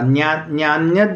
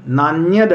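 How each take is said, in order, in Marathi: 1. शब्द 'dny' जोडाक्षराने सुरू होतो. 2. शब्द साध्या 'n' आवाजाने सुरू होतो. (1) "नाही आहे" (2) "आहे"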